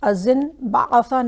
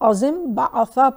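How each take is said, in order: First: An n sound is said before the b. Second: An m sound is said before the b. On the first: The speaker calls it wrong. "नहीं पढ़ेंगे" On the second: The speaker calls it right. "बल्कि अजिम बाआफा पढ़ेंगे"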